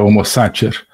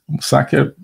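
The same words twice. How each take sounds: First: It uses the ecclesiastical Latin pronunciation. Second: It uses the restored classical Latin pronunciation. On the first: "A pronúncia eh, eclesiástica seria" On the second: "uso aqui a pronúncia restaurada do latim"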